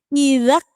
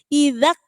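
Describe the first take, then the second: The two takes are said the same way.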